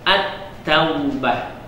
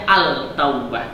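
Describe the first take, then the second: First: The l merges into the following t sound. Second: The l is pronounced clearly before the t. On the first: The speaker calls it right. "dia melebur ke huruf ta" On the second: The speaker calls it wrong. "Tidak boleh kita baca"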